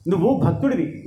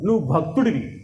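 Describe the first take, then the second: First: Said in the usual way. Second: Low Vishnu voice. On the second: Shown as a demonstration. Vishnu to Prahlada, a deep calm rebuke. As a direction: drop the pitch on నువ్వు భక్తుడివి.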